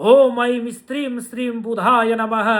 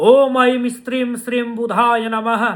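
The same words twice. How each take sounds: Both takes have the same delivery.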